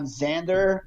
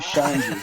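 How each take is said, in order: First: The name begins with a 'z' sound. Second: The name begins with a 'sh' sound. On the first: The speaker is angry. "when I get mad, I'm" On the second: The speaker is calm. "When I'm cool, I'm"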